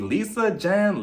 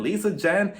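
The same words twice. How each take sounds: First: "Lisa, Jen" with falling tune on "Jen"; weighing two names, settled fall. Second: "Lisa, Jen?" rising on "Jen" like a question; puzzled rising repeat of the two names. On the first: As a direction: set out "Lisa, Jen" as flat options. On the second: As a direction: ask "Lisa, Jen?" with an unsure rise. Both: Real, not acted. Weighing who to believe.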